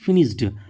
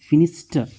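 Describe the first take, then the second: First: The word ends with a d sound. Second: The word ends with a t sound. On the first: The speaker calls it wrong. "ये इसको हम पढ़ते हैं फिनिश्ड" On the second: The speaker calls it right. "लेकिन वो real में होता है"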